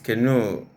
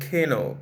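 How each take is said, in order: First: The stress is on the second syllable. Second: The stress is on the first syllable. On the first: The speaker calls it right. "it's canoe. It's a noun, but it's stressed as though it's a verb" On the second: The speaker calls it wrong. "the word is not canoe"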